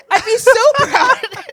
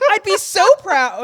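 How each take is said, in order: First: High, loud, laughing through the line; giggling proud aunt; laughing quote. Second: Put-on high, loud proud old lady voice; quoting Edith. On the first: Retold or imitated. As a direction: crack up while saying proud. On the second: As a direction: gush it like a doting aunt. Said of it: "And then she says".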